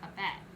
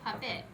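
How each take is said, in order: First: The second syllable sounds like 'pet'. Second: The second syllable sounds like 'pit'. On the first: "but it's actually puppet. So with that E" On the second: "so it sounds like that I"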